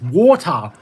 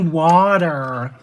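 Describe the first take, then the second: First: It is said in an Australian accent. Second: It is said in an American accent. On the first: The speaker calls it right. "no, it's water" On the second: The speaker calls it wrong. "frickin' Americans can't say it properly. They say water"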